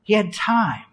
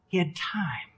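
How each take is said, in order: First: Said in the usual way. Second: Very soft whisper; barely voiced, for emphasis; whispered repetition. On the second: Real, not acted. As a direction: hush it to let it sink in. Point repeated in a whisper.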